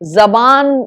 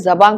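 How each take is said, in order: First: The word ends with a full n sound. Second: The word ends in a nasalized vowel. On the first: "जबान ना करके" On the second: "बस ना ना लगा के उसको जवां कर दिया"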